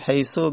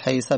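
First: The word ends in a short u vowel. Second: The word ends in a short a vowel. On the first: "حیثو به دم میخونن" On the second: "حیثه به فتح میخونن"

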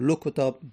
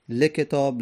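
First: The L is followed by a u vowel. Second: The L is followed by an i vowel. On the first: "دمه" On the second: "کسره"

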